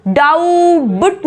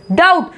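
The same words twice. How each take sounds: First: डाउबट in two parts, "dow-but"; wrong pronunciation demo. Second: डाउट as one syllable, "dowt"; silent b demo. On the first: Teacher showing what not to say, mispronounced. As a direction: sound the b in डाउबट, drawn out. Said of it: "नहीं बोलेंगे". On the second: Teacher modelling doubt, silent b. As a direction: leave the b out of डाउट. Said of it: "बी silent है". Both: Shown as a demonstration.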